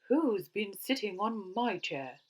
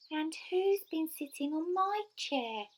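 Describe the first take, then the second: First: It is said in Mother Bear's cross voice. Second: It is said in Baby Bear's squeaky voice.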